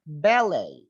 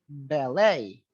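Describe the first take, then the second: First: It is said in a British pronunciation. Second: It is said in an American pronunciation. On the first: "kalau A ini di British itu A" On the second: "Tapi kalau di American E gitu"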